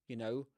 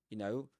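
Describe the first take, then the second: Both takes have the same delivery.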